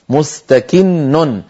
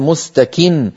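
First: A doubled n is followed by a vowel ending. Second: The word stops on a single n. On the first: The word continues into what follows. "في الوصل نونان" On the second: The reader pauses on the word. "عندما نقف عليها نقول مستكن"

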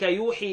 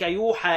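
First: The word ends with a long 'i' sound. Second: The word ends with a long 'a' sound. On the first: "وباقي القراء بعكس الفتح الكسر" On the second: "ابن كثير يقرأ بفتح الحاء"

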